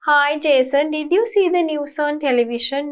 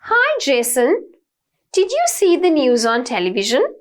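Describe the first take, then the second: First: It is read flatly with little pitch variation. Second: It is spoken lively with varied intonation. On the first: The speaker calls it wrong. "You don't tell it like that" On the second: The speaker calls it right. "with the variations in your voice"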